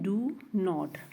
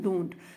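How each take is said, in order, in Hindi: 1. इसे दो अलग-अलग पूरे शब्दों की तरह बोला जाता है। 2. इसे एक कॉन्ट्रैक्टेड शब्द की तरह बोला जाता है। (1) "फर्स्ट ऑफ ऑल हमारे पास है डू नॉट" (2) "अब डू नॉट को हम कैसे बोलते हैं?"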